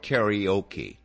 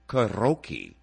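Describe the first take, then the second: First: The word has an American English pronunciation. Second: The word has a Japanese-style pronunciation. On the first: The speaker calls it wrong. "over here, we call it karaoke" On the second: The speaker calls it right. "The proper pronunciation is karaoke"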